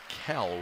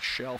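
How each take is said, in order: First: The name begins with a K sound. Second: The name begins with a SH sound. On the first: The speaker calls it right. "Kell with a silent J" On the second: The speaker calls it wrong. "It's not Shell Freeland"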